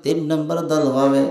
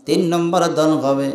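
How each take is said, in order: Both takes have the same delivery.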